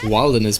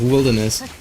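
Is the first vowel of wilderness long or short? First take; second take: long; short. First: The first vowel is long, as in 'wild'. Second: The first vowel is short, as in 'will'. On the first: The speaker calls it wrong. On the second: The speaker calls it right.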